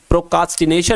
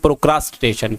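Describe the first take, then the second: First: The second syllable is said without an r. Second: The second syllable is said with an r. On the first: The speaker calls it wrong. "प्रोकास्टिनेशन नहीं होता है" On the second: The speaker calls it right. "असल में होता है साथियों"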